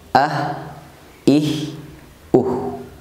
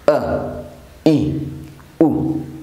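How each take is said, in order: First: The consonant ends with an audible breath release. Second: The consonant ends with the breath held back. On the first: The speaker calls it right. "Yang tepat sekali lagi" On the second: The speaker calls it wrong. "Napasnya tertahan. Nah, itu cara pengucapan yang kurang tepat"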